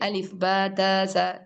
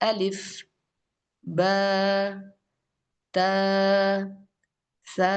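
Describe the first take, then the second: First: The letters are recited quickly. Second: The letters are recited slowly. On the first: The speaker calls it wrong. "കൂടുതൽ സ്പീഡിൽ" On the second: The speaker calls it right. "ഇങ്ങനെയാണ്"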